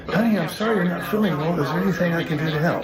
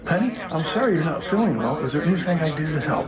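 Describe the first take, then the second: First: A bit more caring, with a laugh at the end; warmer sympathy. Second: Lukewarm sympathy. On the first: Husband practicing comfort line for sick wife, warmer with a laugh. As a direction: lean into the sympathy this time. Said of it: "Let's try it again". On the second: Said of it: "that's a little lukewarmish". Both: Shown as a demonstration.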